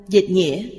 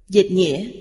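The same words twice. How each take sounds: No difference in how they are said.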